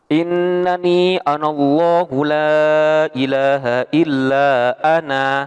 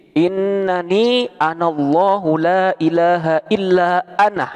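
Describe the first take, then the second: First: The final vowel is held long. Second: The final vowel is short, ending in h. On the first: "Ana tetap alifnya dibaca panjang" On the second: "Nunnya dibaca pendek, namun cara bacanya seolah-olah mensungkutkan huruf H"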